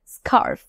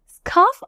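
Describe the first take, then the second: First: American স্কার্ফ with an audible r before f; US pronunciation. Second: R-less British স্কার্ফ with a long vowel; UK pronunciation. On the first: Teacher naming the American form for learners, US pronunciation. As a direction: say স্কার্ফ as "skarrf", r pronounced. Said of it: "US প্রনাউন্সিয়েশনে এটাকে আমরা বলি". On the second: Teacher naming the British form for learners, UK pronunciation. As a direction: say স্কার্ফ as "skaaf", r silent. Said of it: "আমরা বলি UK প্রনাউন্সিয়েশনে". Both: Shown as a demonstration.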